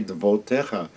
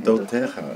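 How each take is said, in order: First: The word has a v sound in the middle. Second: The word has no v sound in the middle. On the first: "so you have to pronounce it" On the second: "So usually you'd say eidotecha"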